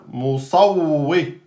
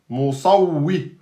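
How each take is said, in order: Both takes have the same delivery.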